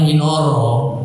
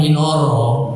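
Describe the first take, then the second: First: The later vowels are pronounced as rounded o sounds. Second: The same.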